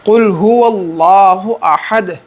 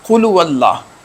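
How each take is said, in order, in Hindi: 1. 'qul' के बाद का 'hu' अक्षर साफ़ तौर पर बोला जाता है। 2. 'qul' के बाद का 'hu' अक्षर छोड़ दिया जाता है। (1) "जब तक हुआ ना पढ़ा जाए तब तक वो आयत मुकम्मल नहीं होगी" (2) "वो भी इसमें गलती करते हैं"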